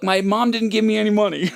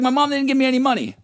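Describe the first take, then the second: First: Said in the usual way. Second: Higher and fast, mocking his own excuse; whiny mock kid. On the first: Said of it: "I go". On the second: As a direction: mimic yourself as a whiny teen, rushed. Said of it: "I was like".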